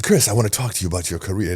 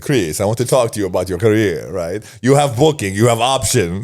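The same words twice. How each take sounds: First: Said in the usual way. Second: Put-on Italian accent. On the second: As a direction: play the Italian booker with a mild Italian accent. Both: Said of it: "This Italian accent".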